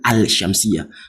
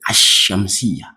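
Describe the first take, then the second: First: A clear L sound comes before the sh. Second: The L is silent and the sh is doubled. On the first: The speaker calls it wrong. "I'm not saying al-shamsiyah. That, that's wrong" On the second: The speaker calls it right. "The lam is not heard"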